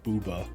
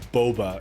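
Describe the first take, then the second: First: The first vowel sounds like 'oo'. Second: The first vowel sounds like 'oh'. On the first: The speaker calls it wrong. "not Booba. That would be like another O" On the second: The speaker calls it right. "the correct name is Boba"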